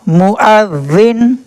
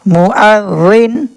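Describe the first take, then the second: Both takes have the same delivery.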